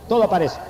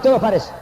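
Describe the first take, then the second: First: Said in the usual way. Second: "todo aparece" thrown out high and loud; emphatic preaching. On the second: Real, not acted. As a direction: punch "todo aparece" as the refrain's climax.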